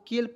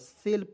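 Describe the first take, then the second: First: The word begins with a K sound. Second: The word begins with an S sound. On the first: The speaker calls it wrong. "केल पढ़े क्या, बिल्कुल गलत है" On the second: The speaker calls it right. "सेल पढ़ना है"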